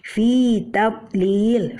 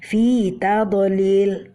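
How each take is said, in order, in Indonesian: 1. Konsonan yang tertutup ditahan tanpa dipantulkan. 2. Konsonan yang tertutup dilepas dengan dipantulkan. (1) "Kita tidak boleh memantulkannya" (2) "ini salah ya"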